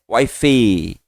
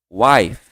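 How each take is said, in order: First: The word ends with a strong added vowel. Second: The word ends softly on the F sound. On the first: The speaker calls it wrong. "Ele não sai wife. O E forte não sai" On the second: The speaker calls it right. "esse F vai morrer aqui no seu lábio"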